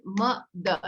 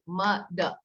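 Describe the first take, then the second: First: Slow, syllables apart; syllable demo. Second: Said in the usual way. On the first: Shown as a demonstration. Teacher modeling a syllable clap. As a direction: model the word for the child. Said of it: "So I say". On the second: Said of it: "Now you do it".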